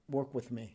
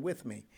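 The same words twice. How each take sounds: First: Said in the usual way. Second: "With" leaned on, "me" light; stress on with. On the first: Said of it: "He didn't say for me". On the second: Retold or imitated. Quoting the warden's offer, stress on "With". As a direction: mark the word "With" to set it against "for". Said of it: "He didn't say for me. He said".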